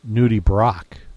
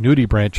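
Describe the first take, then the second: First: The last part sounds like 'brock'. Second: The last part sounds like 'branch'. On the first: The speaker calls it right. "the proper pronunciation is" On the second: The speaker calls it wrong. "that's what I would say"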